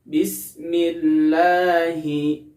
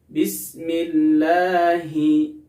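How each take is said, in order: No difference in how they are said.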